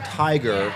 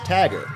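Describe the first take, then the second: First: The I vowel is a full gliding sound. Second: The I vowel is flattened to a short A. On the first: "the I sound in tiger" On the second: "was pronounced tagger"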